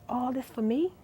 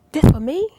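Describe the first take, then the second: First: Soft, quiet wonder; half to yourself, barely voiced; awed murmur; hushed disbelief. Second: Louder, higher burst of disbelief; overwhelmed exclamation; loud amazed cry. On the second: Retold or imitated. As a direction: cry it out in awe. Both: Overwhelmed, retelling prayer to God.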